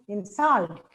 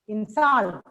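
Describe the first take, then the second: First: The stress is on the second syllable. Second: The same.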